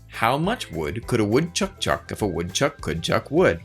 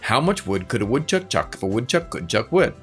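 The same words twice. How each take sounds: First: It is said at a moderate pace. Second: It is said at a fast pace.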